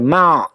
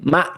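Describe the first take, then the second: First: The throat is tense, sounding like an 'ain. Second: The throat is relaxed, with a soft start. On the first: The speaker calls it wrong. "jangan sampai ma, jadinya ain" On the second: The speaker calls it right. "tapi ma"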